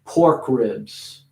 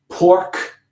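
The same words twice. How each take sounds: First: "Pork ribs" with the K of "Pork" light and short; light K, linked words; smaller K. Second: "Pork." said alone with a full K, a touch higher; isolated word, full K. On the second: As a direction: give "Pork" a full, clear K. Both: Shown as a demonstration. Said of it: "making the K a little smaller".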